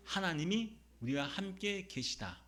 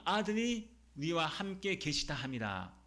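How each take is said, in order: First: 하나님이 raised and drawn out as the answer; slow, deliberate line led by a higher 하나님이; stress on 하나님이. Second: 아들이 drawn out slowly as the mistaken subject; slow recitation, setting 아들이 apart; stress on 아들이. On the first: Preacher answers who is with us, stressing 하나님이. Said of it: "누가 우리와 함께 계시다고 합니까?". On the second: Preacher shows the mistaken reading, stressing 아들이. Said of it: "이런 뜻이 아니죠". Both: Shown as a demonstration.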